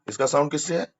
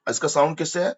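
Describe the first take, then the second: No difference in how they are said.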